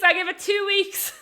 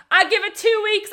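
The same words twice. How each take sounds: First: Loud, high, drawn-out repeat of the jibe; slower repeated yell. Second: High, loud yell out the car window; retold scream. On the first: Retold or imitated. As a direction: stretch the joke out as you shout it again. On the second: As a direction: shout the jibe at strangers passing by. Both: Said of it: "he's screaming at the window".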